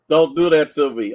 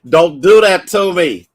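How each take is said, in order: First: Said in the usual way. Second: Louder, higher pleading on the edge of tears; tearful loud plea; fighting back tears. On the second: Real, not acted. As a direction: beg them to stop, choking up. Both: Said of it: "'cause I'm trying not to cry".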